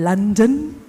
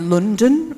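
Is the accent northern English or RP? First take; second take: RP; northern. First: It is said in a standard RP accent. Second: It is said in a northern English accent.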